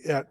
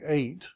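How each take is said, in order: First: The vowel is a short e sound. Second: The vowel is a long ay sound. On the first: "if it has the makaf, it's going to be et with the um, segol" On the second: "If it doesn't have the makaf, it will be eight"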